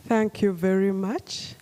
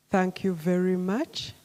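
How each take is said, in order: Both takes have the same delivery.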